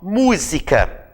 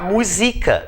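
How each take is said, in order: First: The stress falls on the first syllable. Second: The stress falls on the second syllable. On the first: It is the noun for music. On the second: It is a form of the verb musicar.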